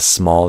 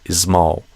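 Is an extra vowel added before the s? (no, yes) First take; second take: no; yes. First: It starts directly with the s sound. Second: An extra vowel comes before the s. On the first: "Instead of small" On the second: "they do ismal"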